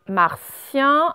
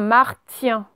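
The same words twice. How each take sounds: First: The t is pronounced as an s sound. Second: The t is pronounced as a t sound. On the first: The speaker calls it right. "on entend bien le se" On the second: The speaker calls it wrong. "on ne dit pas un martien"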